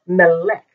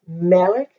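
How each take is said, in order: First: Melech with the weight on the final "lech"; wrongly accent the end of Melech; stress on last syllable. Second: Melech with the weight on "Me"; stress on first syllable. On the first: Teacher showing what not to say, Melech stressed at the end. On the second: Teacher giving the right form, Melech stressed at the start. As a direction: say Melech accented at the beginning. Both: Shown as a demonstration. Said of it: "most words have the accent on the end".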